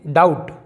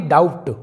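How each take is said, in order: First: डाउट said "daut", straight to T; no B before the T in डाउट; silent B. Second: डाउट said "daubt" with a stop before T; B sounded. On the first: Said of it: "इसे हम पढ़ेंगे". (डाउट में ब silent, सीधा ट) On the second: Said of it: "ना कि". (डाउट में ट से पहले ब बोलें) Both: Shown as a demonstration.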